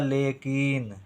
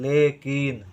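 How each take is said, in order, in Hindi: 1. दूसरे अक्षर में दीर्घ स्वर है। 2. दूसरे अक्षर में दीर्घ स्वर है।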